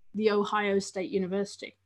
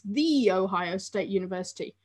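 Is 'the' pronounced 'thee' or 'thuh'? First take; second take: thuh; thee. First: 'The' is said with a short 'thuh' vowel. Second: 'The' is said with a long 'thee' vowel. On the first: This is the ordinary form, not the trademarked one. The speaker calls it wrong. "not the Ohio State University" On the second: This is the special form that was to be trademarked. The speaker calls it right. "they wanted it to be trademarked with the pronunciation the"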